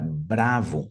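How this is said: The word has a Brazilian Portuguese pronunciation. The speaker calls it wrong. "Percebe como a pronúncia ela é quebrada"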